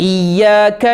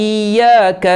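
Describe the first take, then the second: No difference in how they are said.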